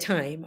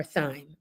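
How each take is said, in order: First: Thyme pronounced like "time"; T sound in thyme. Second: Thyme said as "thime"; TH sound in thyme. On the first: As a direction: open thyme on a plain hard T. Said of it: "We call it thyme". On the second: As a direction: open thyme on a soft TH. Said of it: "thyme without the H". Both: Shown as a demonstration.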